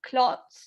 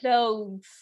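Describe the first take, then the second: First: The word is said with a hard sound. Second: The word is said with a soft sound. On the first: The speaker calls it wrong. "I hear you all basically often say uh, clots or something like that" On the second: The speaker calls it right. "try and say it like in a softer way"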